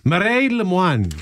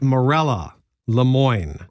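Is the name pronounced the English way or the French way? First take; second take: French; English. First: The name is said with a French pronunciation. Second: The name is said with an English pronunciation. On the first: "I'm going to guess is the French pronunciation" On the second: "we called her Morella"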